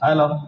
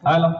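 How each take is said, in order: First: The voice has little treble and sounds dull. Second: The voice has more treble and sounds bright. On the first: The speaker calls it wrong. "इसकी triple थोड़ी सी बढ़ाओ" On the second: The speaker calls it right. "Yes"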